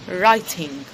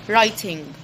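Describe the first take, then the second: No difference in how they are said.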